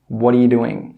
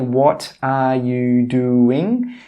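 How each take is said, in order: First: The words run together into one quick chunk. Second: Each word is said separately and clearly. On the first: The speaker calls it right. "We join them all together and we say" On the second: The speaker calls it wrong. "We don't say"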